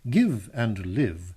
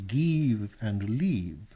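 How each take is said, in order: First: The vowels are said in plain English. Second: The vowels are stretched in a mock-Italian way. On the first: The speaker calls it right. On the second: The speaker calls it wrong.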